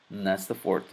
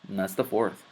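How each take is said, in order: No difference in how they are said.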